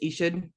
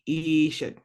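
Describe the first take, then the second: First: The vowels are said short and quick. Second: The vowels are drawn out and lengthened. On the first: The speaker calls it wrong. "instead of just Ishud" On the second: The speaker calls it right. "you kind of draw them out a little bit"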